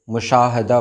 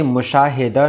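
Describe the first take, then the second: First: मुशाहदा with no "i" after h; correct pronunciation. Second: मुशाहिदा with "hi" in the middle; wrong pronunciation. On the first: Teacher saying how to read it, correctly pronounced. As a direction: say "mu-shaa-ha-da" for मुशाहदा. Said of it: "मुशाहदा पढ़ेंगे". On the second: Teacher saying what not to read, mispronounced. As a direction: say "mu-shaa-hi-da" for मुशाहिदा. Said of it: "नहीं पढ़ेंगे". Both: Shown as a demonstration.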